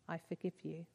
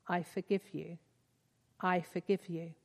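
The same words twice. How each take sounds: First: Softer, stumbling I forgive you; hesitant, held-back forgiveness; half-hearted whisper. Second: Fuller, firmer I forgive you; mean it more each time; steadier, heartfelt forgiveness; growing conviction. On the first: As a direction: forgive him with no conviction yet, barely voiced. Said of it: "whisper in tones half-hearted and stumbling". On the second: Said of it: "and then with increasing conviction". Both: A narrator's reading.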